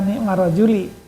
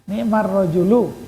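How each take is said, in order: First: The last word ends with an 'i' vowel. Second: The last word ends with a 'u' vowel. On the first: The speaker calls it wrong. "Maaf, bukan nikmar rojuli" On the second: The speaker calls it right. "Sebab niknya fiil madi bukan isim"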